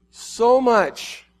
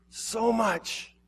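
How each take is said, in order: First: Higher and louder, crying out in anguish. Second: High but soft, a breaking echo; hushed echo. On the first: Jesus crying out his love, high and loud. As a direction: burst out with it, aching. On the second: Jesus repeating his love, hushed and aching. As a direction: let the repeat fade into a sigh. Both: Acted. Jesus grieving over the lost.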